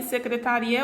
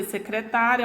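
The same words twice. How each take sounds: First: "secretaria" stressed se-cre-ta-RI-a; weight on the RI of "secretaria". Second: "secretária" stressed se-cre-TÁ-ria; weight on the TÁ of "secretária". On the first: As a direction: say "secretaria" with RI as the strong syllable. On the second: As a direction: say "secretária" with TÁ as the strong syllable. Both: Shown as a demonstration. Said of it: "ela muda de posição".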